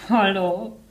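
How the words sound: It is said with a tense, clenched voice.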